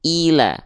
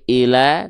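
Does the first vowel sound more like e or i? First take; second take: i; e. First: The first vowel is a clear, high i. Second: The first vowel sounds close to e. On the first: The speaker calls it right. "tapi ila" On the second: The speaker calls it wrong. "jangan sampai"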